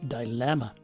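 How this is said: The first syllable has a long i vowel. This is the UK pronunciation. "in the U K they use a long letter I"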